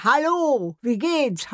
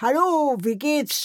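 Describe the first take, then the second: First: High, loud parrot call "Hallo"; parrot greeting. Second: Parrot greeting. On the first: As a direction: squawk it like a shop parrot. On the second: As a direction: call again like a parrot. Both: Retold or imitated. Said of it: "plötzlich ruft mir einer".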